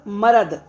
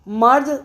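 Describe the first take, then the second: First: A short vowel separates the r and d. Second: The r and d form a cluster, no vowel. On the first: This is how village speech says the word. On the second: This is the standard form of the word.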